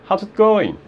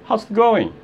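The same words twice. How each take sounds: Both takes have the same delivery.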